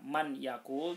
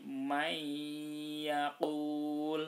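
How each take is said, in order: First: The first word ends with an n sound. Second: The first word ends with a y sound. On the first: The speaker calls it wrong. "tidak dibaca man yakul" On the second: The speaker calls it right. "tapi may yakul"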